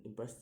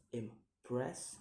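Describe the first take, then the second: First: Said in the usual way. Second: "impress" broken in two, rising on the second syllable; second-syllable stress. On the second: Shown as a demonstration. Teacher showing stress, "impress" in two rising beats. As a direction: separate "impress" and lift its ending. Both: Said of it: "put on the second".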